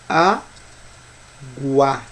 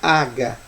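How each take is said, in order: First: A 'u' sound is heard after the g. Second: No 'u' sound is heard after the g. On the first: The speaker calls it right. "presta atenção na pronúncia. ... Existe a pronúncia do U? Existe" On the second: The speaker calls it wrong. "Eu não falo aga"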